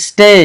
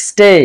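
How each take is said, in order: No difference in how they are said.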